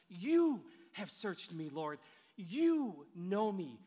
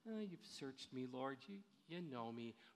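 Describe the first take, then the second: First: The word 'you' is said with strong emphasis. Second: The word 'you' is said casually, without emphasis.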